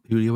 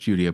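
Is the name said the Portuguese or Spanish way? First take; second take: Spanish; Portuguese. First: The name is said the Mexican Spanish way. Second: The name is said the Brazilian Portuguese way. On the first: The person is taken to be Mexican. The speaker calls it right. "It's Julio because I believe Julio is Mexican" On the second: The person is taken to be Brazilian. The speaker calls it wrong. "I made the mistake of thinking he was Brazilian, so it was Julio"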